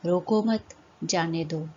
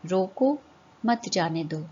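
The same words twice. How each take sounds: First: रोको मत run together, break, then जाने दो; pause after मत. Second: रोको on a rise, break, then मत जाने दो; pause after रोको. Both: Shown as a demonstration. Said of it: "चिन्हों के प्रयोग से उनका अर्थ बदल".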